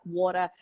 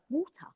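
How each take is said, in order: First: Said in the usual way. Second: British "Water", pitched up and softly ended; British accent. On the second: Shown as a demonstration. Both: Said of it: "I say in the British accent".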